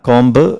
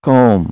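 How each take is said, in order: First: The word ends with an audible b sound. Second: The word ends without a b sound. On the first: The speaker calls it wrong. "കോംബല്ല" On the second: The speaker calls it right. "ബി letter ഇവിടെ silent ആണ്"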